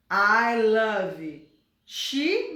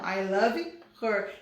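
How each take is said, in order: First: Wrong form, very slow. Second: Said in the usual way. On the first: Shown as a demonstration. Teacher slowly voicing the mistake before correcting it. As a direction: drag out I love she with she rising. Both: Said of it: "não".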